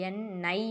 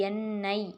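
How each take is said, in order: Both takes have the same delivery.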